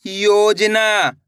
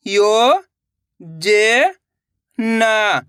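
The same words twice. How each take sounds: First: Said in the usual way. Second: योजना, drawn out very slowly, syllables apart. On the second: Shown as a demonstration. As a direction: sound out योजना, one syllable at a time. (अक्षर-अक्षर धीरे बोलना) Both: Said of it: "तो मिलके बन जाएगा".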